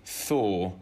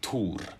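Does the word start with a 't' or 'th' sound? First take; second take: th; t. First: The word begins with a 'th' sound. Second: The word begins with a plain 't' sound. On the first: "But in English" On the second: "In Swedish, for example, there's no age. So it's Tor"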